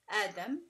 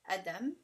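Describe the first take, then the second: The two takes are said the same way.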